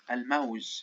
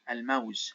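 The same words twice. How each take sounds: Both takes have the same delivery.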